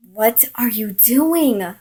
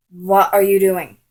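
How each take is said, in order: First: Louder, "doing" swooping up then down; indignant repeat. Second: Loud, falling "What are you doing"; indignant confrontation. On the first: Girl confronts him a second time, stressing "doing" indignantly. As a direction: stretch and lift "doing" in outraged disbelief. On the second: Girl catches him kissing another, loud indignant demand. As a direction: demand it loudly without lifting the pitch. Retold confrontation after seeing kiss. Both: Retold or imitated.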